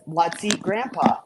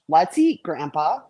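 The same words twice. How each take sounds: First: It is said without a pause before 'Grandpa'. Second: It is said with a pause before 'Grandpa'.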